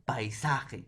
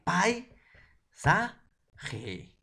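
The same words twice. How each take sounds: First: Said in the usual way. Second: "Pai, sa, ge" split by pauses, "Pai" high and loud; syllable by syllable. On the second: Shown as a demonstration. Teacher shows students how paisaje divides, syllable by syllable. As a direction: break it up as "Pai... sa... ge". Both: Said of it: "¿Cómo sería?".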